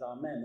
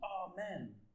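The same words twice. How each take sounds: First: It is said calmly and plainly. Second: It is screamed loudly in panic.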